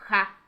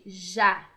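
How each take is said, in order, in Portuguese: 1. O J tem o som espanhol. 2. O J tem o som português. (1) "em espanhol tem o som de ja" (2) "Pra gente ele tem esse som de já"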